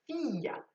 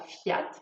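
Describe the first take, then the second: First: The I vowel is clearly pronounced. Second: The I vowel is left silent. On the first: The speaker calls it right. "le I se prononce" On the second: The speaker calls it wrong. "On ne dit pas"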